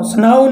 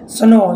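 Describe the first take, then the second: First: स्नाउ said as "snau", rhyming with cow; wrong pronunciation. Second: स्नो said as "sno", a long o with no w sound; right pronunciation. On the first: Teacher shows students the wrong reading of snow, "snau". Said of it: "स्नाउ नहीं पढ़ना". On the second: Teacher gives students the correct reading of snow. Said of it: "तो इसे पढ़ना है स्नो". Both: Shown as a demonstration.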